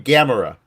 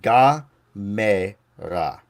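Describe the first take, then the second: First: The name is said with English-style vowels. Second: The name is said with Japanese-style vowels. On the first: It is the form most listeners know. The speaker calls it wrong. "I'll mispronounce it so everyone knows what I'm talking about" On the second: It respects the original language. The speaker calls it right. "I'm trying to pronounce it like Japanese"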